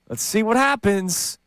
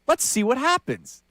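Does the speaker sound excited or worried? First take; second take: worried; excited. First: Said in a wary, doubtful, worried tone. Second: Said in an eager, hopeful, excited tone. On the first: The outcome is expected to be bad. "the second Patullo got hired, we're like, uh, oh" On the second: The outcome is expected to be good. "the tone is completely different"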